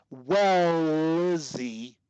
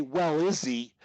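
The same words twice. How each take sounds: First: "Well, Izzy" run together with the L held long; connected as one word. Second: Said in the usual way. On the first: Shown as a demonstration. Coach showing a stutterer how to link words, connected as one word. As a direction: stretch the L of "Well" straight into "Izzy". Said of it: "I'm connecting it as one word". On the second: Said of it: "notice this".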